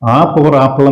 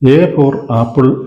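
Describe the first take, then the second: First: The letter is said with an 'ah' vowel. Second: The letter is said with an 'eh' vowel. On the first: The speaker calls it right. "ആ four apple എന്ന് പറഞ്ഞെങ്കിലല്ലേ ശരിയാവും" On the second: The speaker calls it wrong. "എ four apple ആണെങ്കിൽ അത് തീർച്ചയായിട്ടും അവിടെ എ ആകാനല്ല സാധ്യത"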